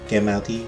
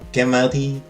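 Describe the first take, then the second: First: It is said very quietly. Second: It is said loudly and forcefully.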